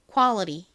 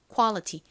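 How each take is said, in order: First: The t is flapped, sounding like a soft l. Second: The t is pronounced as a clear t. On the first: "T를 버터 바른 듯이 약간 느끼하게 이렇게 리을처럼 좀 꼬아서 발음" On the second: "그냥 t를 t 발음으로 딱 살려서"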